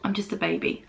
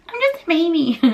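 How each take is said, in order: First: Said in the usual way. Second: High, babyish mock whine. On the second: Shown as a demonstration. Vlogger mocking herself, in a high baby voice. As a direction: squeak it like a toddler. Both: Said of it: "Judge me all you like".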